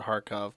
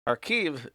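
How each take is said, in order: First: The name ends with a 'kov' sound. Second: The name ends with a 'kiv' sound. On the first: This is the Russian form of the name. "Kharkov is the Russian pronunciation" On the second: This is the Ukrainian form of the name. "Kharkiv is the Ukrainian pronunciation"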